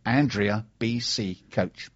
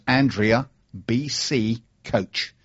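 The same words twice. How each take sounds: First: Slow repeat. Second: Slow, spelled out. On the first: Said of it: "Her Twitter handle is". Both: Shown as a demonstration.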